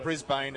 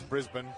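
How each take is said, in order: First: Brisbane said as BRIZ-bane, long second syllable; American pronunciation. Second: Brisbane said short as BRIZ-bn; Australian pronunciation. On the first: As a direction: Brisbane with a full BANE ending. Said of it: "everyone says it's not". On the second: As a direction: Brisbane with the ending swallowed. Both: Shown as a demonstration.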